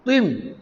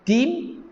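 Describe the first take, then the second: First: "tim" with a heavy, emphatic Arabic t; thick T. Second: Higher "Tim" with a light, plain t; thin T. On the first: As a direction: say "tim" with a thick tho sound. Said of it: "Lagi tebal". ("tim" dengan bunyi tho tebal) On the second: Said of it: "bunyi dia lagi nipis". ("Tim" dengan bunyi ta nipis) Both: Shown as a demonstration.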